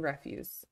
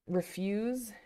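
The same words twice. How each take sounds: First: The stress is on the first syllable. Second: The stress is on the second syllable. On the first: It is a noun: trash or garbage. "the noun form it's trash, garbage" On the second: It is a verb: to say no to something. "one is obviously to object to something in the verb form"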